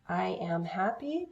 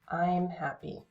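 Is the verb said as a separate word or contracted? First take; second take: separate; contracted. First: The verb is a separate full syllable. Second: The verb is joined to the pronoun. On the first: "the long forms" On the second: "it combines to make just one syllable"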